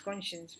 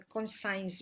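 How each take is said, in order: First: The ending does not sound like 'science'. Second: The ending sounds like the word 'science'. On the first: The speaker calls it right. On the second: The speaker calls it wrong.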